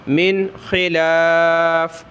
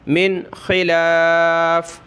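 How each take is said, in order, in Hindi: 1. यह वाक्यांश बिना स्वर वाले व्यंजन 'f' पर खत्म होता है। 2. यह वाक्यांश बिना स्वर वाले व्यंजन 'f' पर खत्म होता है।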